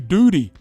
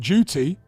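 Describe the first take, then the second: First: The middle consonant sounds like a D. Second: The middle consonant is a clear T sound. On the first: "as if it's D O O D Y" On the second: "Instead of saying duty"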